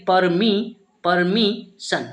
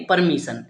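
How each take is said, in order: First: परमिशन broken slowly into पर, मी, सन; परमिशन taught piece by piece, pausing between syllables. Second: Said in the usual way. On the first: Shown as a demonstration. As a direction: sound out परमिशन in separate slow chunks. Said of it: "इसे हम क्या पढ़ेंगे". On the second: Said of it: "इस तरीके से हम पढ़ेंगे".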